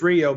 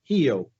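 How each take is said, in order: First: It starts with an English-style R sound. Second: It starts with an H-like sound. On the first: This is how an American would say it. "to an American it's Rio" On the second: This is how it is said in Portuguese. "the R is an H sound"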